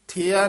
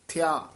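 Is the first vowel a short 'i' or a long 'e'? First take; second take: long e; short i. First: The first vowel is a long 'e' sound. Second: The first vowel is a quick short 'i'. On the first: The speaker calls it wrong. "ਥਿਆ ਨਹੀਂ ਕਹਿਣਾ ਲਾਂ ਲਾ ਕੇ" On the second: The speaker calls it right. "ਥੱਤੇ ਸਿਆਰੀ, ਥਿਆ"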